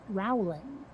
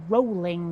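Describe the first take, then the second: First: The first vowel sounds like the one in bowel. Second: The first vowel sounds like the one in bowl. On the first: The speaker calls it wrong. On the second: The speaker calls it right. "her name is pronounced"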